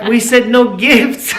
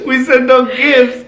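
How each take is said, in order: First: Slow, laughing through the words; laughing protest. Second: Slow, still laughing; laughing repeat. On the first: Husband laughing to wife about the no-gifts rule. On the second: Husband laughing, repeating the rule to his wife. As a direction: chuckle the reminder out. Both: Retold or imitated. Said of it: "I'm like".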